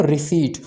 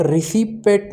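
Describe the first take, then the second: First: रिसीट with a silent p, ri-seet; correct pronunciation. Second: रिसिपेट with the p clearly sounded, ri-si-pet; wrong pronunciation. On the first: Teacher to students giving the right form, रिसीट with silent p. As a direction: say रिसीट smoothly, no p at all. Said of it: "इसको हम pronounce करते हैं रिसीट". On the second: Teacher to students showing the wrong way, रिसिपेट with p sounded. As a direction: say रिसिपेट as a mistaken reading, p spoken aloud. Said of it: "रिसिपेट नहीं pronounce करते". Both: Shown as a demonstration.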